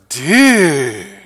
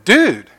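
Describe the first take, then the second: First: It is said with incredulous, disbelieving surprise. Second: It is said as a casual, friendly greeting. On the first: Something sounds crazy. "to say that sounds crazy, you might go" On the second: It is a greeting. "to say hello, you might say"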